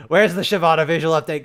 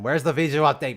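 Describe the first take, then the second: First: Louder, impatient repeat of the question; louder exasperated demand. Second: Said in the usual way. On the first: Real, not acted. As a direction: demand it again, fed up. Streamer complaining about missing update.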